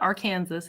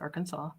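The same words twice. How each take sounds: First: The final s sound is pronounced. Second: The final s sound is silent. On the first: The speaker calls it wrong. "I know it's not Arkansas" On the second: The speaker calls it right. "it's Arkansas"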